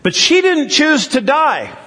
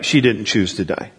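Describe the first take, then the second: First: High, plain-level protesting question; quoting the objection in a raised voice; retold plea, pitched well up; questioner's protest. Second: Said in the usual way. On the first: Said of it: "the question came back". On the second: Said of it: "You're a hundred percent right".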